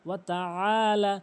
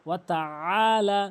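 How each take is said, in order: Both takes have the same delivery.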